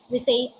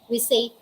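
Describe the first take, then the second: No difference in how they are said.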